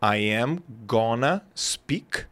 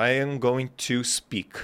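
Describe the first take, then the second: First: Slow "I am gonna speak", "gonna" run together; reduced form. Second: Slow "I am going to speak", every word full; full form. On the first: Teacher showing the host the "gonna" reduction, slowly. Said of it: "Tu pode falar gonna". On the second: Teacher showing "I am going to speak" in full to the host. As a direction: say "I am going to speak" slowly, unreduced. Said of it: "Eu vou falar". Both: Shown as a demonstration.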